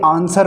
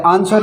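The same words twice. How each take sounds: First: आंसर with no w, as "aansar"; correct silent w. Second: आंसर with a sounded w, as "answar"; wrong reading with w. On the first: Teacher giving students the right reading, silent w in आंसर. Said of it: "ये आंसर होता है". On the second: Teacher showing students a common mistake, w sounded in आंसर. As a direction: say आंसर the way some wrongly read it, w sounded in the middle. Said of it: "कई आंसर पढ़ते हैं". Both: Shown as a demonstration.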